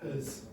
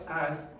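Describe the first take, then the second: First: The word has a weak, reduced vowel. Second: The word has a full, clear vowel. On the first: The speaker calls it right. "It's a weakened sound" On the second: The speaker calls it wrong. "not as"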